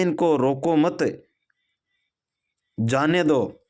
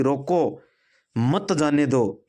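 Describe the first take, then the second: First: Slow इनको रोको मत, long break, then जाने दो; pause after मत. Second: रोको, a short stop, then slow मत जाने दो; pause after रोको. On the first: Commander lets intruders pass, pausing after रोको मत. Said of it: "वही वाक्य और वही कमांडर बोलता है कि". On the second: Commander orders soldiers to stop intruders, pausing after रोको. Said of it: "यानी इनको रोकना है". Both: Shown as a demonstration.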